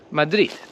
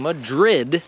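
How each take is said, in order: First: The word ends with a soft T sound. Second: The word ends with a clear D sound. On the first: "they'll say something like Madrid" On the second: "instead of saying Madrid"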